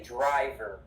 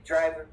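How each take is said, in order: First: DRIVER with a very strong American R at the end; lower, hit the R ending DRIVER hard; strong final R. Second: DRIVER with a weak, barely sounded final R; wrong R. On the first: Teacher correcting students' pronunciation, DRIVER with strong R. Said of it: "The R is very strong". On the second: Teacher showing students what not to say, weak R in DRIVER. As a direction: say DRIVER, letting the end drop away. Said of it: "We don't say driver". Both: Shown as a demonstration.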